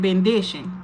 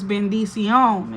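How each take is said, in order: First: The ending sounds like English '-dition'. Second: The ending sounds like Spanish '-ción'. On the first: The speaker calls it wrong. "They said bendition" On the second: The speaker calls it right. "But the word is bendición"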